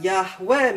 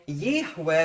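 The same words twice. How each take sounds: First: Yahweh with an open A first, yah-weh; causative form. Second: Yahweh with an i in the first syllable, yih-weh; he-is form. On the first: Teacher contrasting two verb forms, Yahweh said as yah-weh. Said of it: "but Yahweh means he causes to be". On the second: Teacher contrasting two verb forms, Yahweh said as yih-weh. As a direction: open Yahweh on a short yih, then weh. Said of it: "They say Yahweh would mean he is". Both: Shown as a demonstration.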